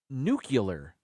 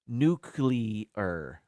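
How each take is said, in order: First: "nuclear" said as "nu-cu-lar", U slipped in after the C; "nucular". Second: "Nuclear" as "nu-clee-ar", C and L together; "Nuclear" spelled out in sound: nu-clear. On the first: Retold or imitated. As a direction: imitate Bush: "nuclear" as "nucular". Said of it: "He would say". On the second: Shown as a demonstration. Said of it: "just the way it's spelled".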